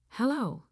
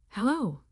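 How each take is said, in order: First: Higher, irritated hello; wife picking up another call, annoyed. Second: Said in the usual way. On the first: A narrator's reading. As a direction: answer the second call already fed up. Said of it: "I asked, annoyed". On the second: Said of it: "Hello? I asked, annoyed".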